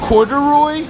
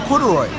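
First: The word is said at a slower pace. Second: The word is said at a quicker pace.

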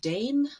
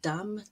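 First: It is said with the modern English vowel. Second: It is said with the older, pre-shift vowel. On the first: This is how it sounds today. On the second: This is how it sounded before the vowel shift. "how they changed from"

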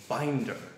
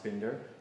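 First: The name is said like the English 'binder'. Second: The name is not said like the English 'binder'. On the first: The speaker calls it wrong. "it's often mispronounced Binder" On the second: The speaker calls it right. "It's pronounced Binder"

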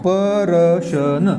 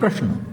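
First: The p and r are split by a vowel. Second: The p and r are joined in one cluster. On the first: "अगोदर या पचा उच्चार होते, नंतर या रचा होते" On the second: "प्रकार आणि प्रश्न असं आपण वाचतो"

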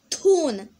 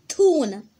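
First: It is said with an American accent. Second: It is said with an American accent.

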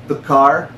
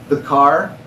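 The two takes are said the same way.

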